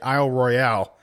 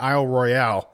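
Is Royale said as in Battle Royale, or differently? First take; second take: Battle Royale; Battle Royale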